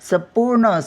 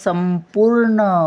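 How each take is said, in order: First: It is said without a nasal sound before p. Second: It is said with a nasal sound before p. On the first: The speaker calls it wrong. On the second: The speaker calls it right.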